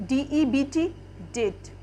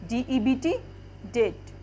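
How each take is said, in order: No difference in how they are said.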